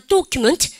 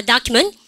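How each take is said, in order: First: "document" with a rounded "o" up front; slow British-style "document", DOK-yu-ment; British pronunciation. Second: "document" starting with an open "dah"; American "document" with an unrounded first vowel; American pronunciation. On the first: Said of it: "오로 해준다". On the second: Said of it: "미국식으로". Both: Shown as a demonstration.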